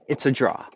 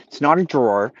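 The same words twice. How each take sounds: First: 'draw' with no R at the end; Boston 'draw', the final R dropped; Boston pronunciation. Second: 'drawer' with a firm final R, louder; mock the standard 'drawer', hitting the R; 'drawer' rhyming with 'roar', R sounded; R-sounded pronunciation. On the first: Retold or imitated. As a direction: correct it to an open, R-less 'draw'. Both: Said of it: "teach you how to pronounce things".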